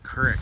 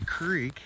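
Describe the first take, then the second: First: It is said Kansas-style with a short i vowel. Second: It is said with a long ee vowel.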